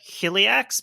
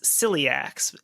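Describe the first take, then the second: First: The name begins with a sh sound. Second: The name begins with an s sound. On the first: "I assume that that C I is probably like a sh sound" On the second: "I think in English we would pronounce this celiacs"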